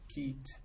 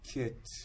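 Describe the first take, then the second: First: The vowel is a tense 'ee' sound. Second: The vowel is a short lax 'i' sound.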